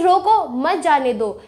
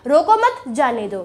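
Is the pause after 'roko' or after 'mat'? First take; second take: after roko; after mat. First: There is a pause after 'roko'. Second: There is a pause after 'mat'.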